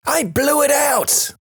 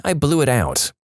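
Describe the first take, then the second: First: High-pitched, drawn-out shout at normal volume. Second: Said in the usual way. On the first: A narrator's reading. Daughter repeats it when asked "What's that now?", high drawn-out shout. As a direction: holler it slow and very high like a little kid.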